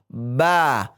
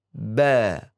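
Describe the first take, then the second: First: The mouth opens too wide, sounding thick. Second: The mouth opens only slightly, sounding thin. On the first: The speaker calls it wrong. "Kalau kita baca terlalu lebar, maka pelafazan huruf itu akan terdengar dan terbaca tebal. ... Ini salah" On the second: The speaker calls it right. "kita lafadzkan dengan membuka sedikit bibir kita, tidak terlalu terbuka"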